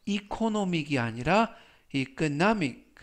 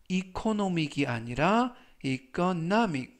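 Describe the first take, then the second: First: The second 이코노믹 stressed on the middle O; stress contrast. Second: 이코노믹 said first with the wrong stress, then with the stress on the middle O; stress contrast. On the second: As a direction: set the wrong 이코노믹 against the right one, stressing the middle O. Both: Shown as a demonstration. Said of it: "강세는 알파벳 O 중간 부분에".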